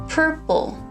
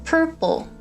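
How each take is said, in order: No difference in how they are said.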